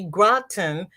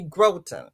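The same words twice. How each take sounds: First: The first vowel is short, like 'cotton'. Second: The first vowel is long, like 'grow'. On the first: This is how the locals want it said. "They want it to be groton. They have to put in two T's like cotton" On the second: This follows the spelling rules. "So the vowel has the long sound. So it should be groton"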